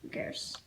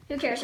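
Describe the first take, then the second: First: Whispered aside, who cares. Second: Said in the usual way. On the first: Real, not acted. Kid whispering an aside to the camera. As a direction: breathe it out under the breath.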